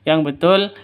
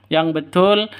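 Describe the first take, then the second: The two takes are said the same way.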